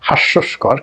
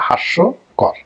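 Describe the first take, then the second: First: An extra s sound comes before the last syllable. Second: No extra s sound comes before the last syllable. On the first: The speaker calls it wrong. "অনেকে বলেন হাস্যস্কর" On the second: The speaker calls it right. "কিন্তু আসলে এটা হবে হাস্যকর"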